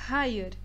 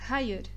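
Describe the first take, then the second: First: The word starts with a rough h sound. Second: The same.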